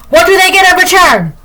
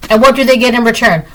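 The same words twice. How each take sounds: First: Pitched up and louder, stressing do; 1 high emphatic repeat. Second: Said in the usual way. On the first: Shown as a demonstration. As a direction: throw the question up high and loud.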